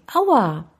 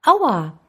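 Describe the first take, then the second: First: Higher-pitched read-aloud cry of pain; mild storyteller's yell of pain. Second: Higher, louder echoed cry; echo from the mountains. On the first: Boy hurts his ankle on a hike, mild pained cry. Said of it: "Der Schmerz ließ ihn laut aufschreien". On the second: Mountains throw the boy's cry back, echoed yelp. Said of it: "hörte er eine Stimme aus den Bergen". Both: A narrator's reading.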